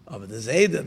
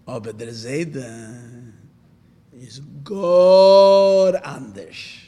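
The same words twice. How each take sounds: First: Said in the usual way. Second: Slow, stretched and swelling louder on Anders; drawn-out emphasis. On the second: Retold or imitated. Tzemach Tzedek telling the scholar about the Zayda, slow and drawn out. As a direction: draw out gar Anders long and heavy, building to a loud finish. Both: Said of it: "he emphasized the word".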